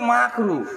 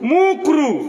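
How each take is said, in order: First: The first vowel sounds like 'a'. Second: The first vowel sounds like 'u'. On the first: The speaker calls it right. "আসলে এটা মাকরু।" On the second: The speaker calls it wrong. "মাকরু শব্দটা ঠিক করে বলে না, কি বলে?"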